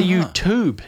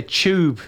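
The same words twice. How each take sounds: First: "YouTube" ending in a clean "toob"; young people's pronunciation. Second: "tube" pronounced "chube" the Kiwi way; New Zealand "tube" with ch for t; flat New Zealand accent. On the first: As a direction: demonstrate "YouTube" as "you-toob", no ch sound. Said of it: "young people these days say". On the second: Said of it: "We say tube". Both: Shown as a demonstration.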